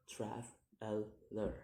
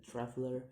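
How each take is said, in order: First: "traveler" slowly in three level beats; syllable by syllable. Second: Said in the usual way. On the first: Shown as a demonstration. Teacher demonstrating syllables, "traveler" slow and split. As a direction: break "traveler" apart with pauses. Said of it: "three syllables to say". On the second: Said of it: "the ending er".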